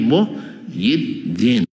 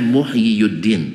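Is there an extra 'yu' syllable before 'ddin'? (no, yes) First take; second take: no; yes. First: No extra 'yu' syllable comes before 'ddin'. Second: An extra 'yu' syllable comes before 'ddin'. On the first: The speaker calls it right. "dibaca yi saja" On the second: The speaker calls it wrong. "Tidak dibaca"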